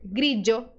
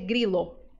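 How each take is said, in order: First: The middle consonant is a dj sound. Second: The middle consonant is a plain l sound. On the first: The speaker calls it right. "pode ser pronunciado como D J" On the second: The speaker calls it wrong. "Não dá para dizer grilo"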